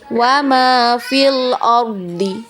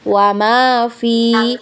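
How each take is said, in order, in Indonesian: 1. Vokal pada fi dibaca pendek dan disambung ke bacaan berikutnya. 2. Vokal pada fi dibaca panjang. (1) "maka kita baca pendek sudah fi-nya ya" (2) "fi-nya kita baca panjang"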